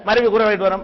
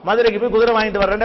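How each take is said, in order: First: The words are run together and syllables dropped. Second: Every syllable is pronounced clearly and fully. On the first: The speaker calls it wrong. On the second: The speaker calls it right.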